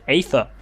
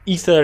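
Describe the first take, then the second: First: The word starts with an 'ay' vowel. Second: The word starts with an 'ee' vowel. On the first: The speaker calls it wrong. "I pronounced it Aether, because it has an A E" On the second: The speaker calls it right. "it was always just pronounced E"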